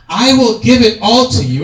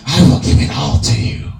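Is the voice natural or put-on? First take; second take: natural; put-on. First: It is read in a plain, natural voice. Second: It is said in a put-on character voice.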